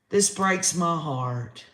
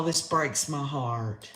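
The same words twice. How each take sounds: First: Slow and steady, "This" leaned on with sorrow; repeating it with a little more voice, still sad; sad, slightly firmer. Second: Soft, slow, hushed heartbreak; quiet, pained sigh of heartbreak on "this"; heartbroken. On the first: Host repeats it to viewers, slow steady sorrow. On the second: Host to her viewers, heartbroken and hushed. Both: Real, not acted.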